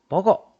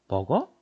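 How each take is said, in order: First: It is said as a forceful command. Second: It is said as a rising question. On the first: It orders someone to eat. "명령형도 되죠" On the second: It asks whether someone eats. "의문형도 되고"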